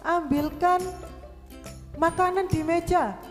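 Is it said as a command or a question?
command. It is said with a commanding exclamation tune. It orders someone to fetch the food. "apalagi tanda seru"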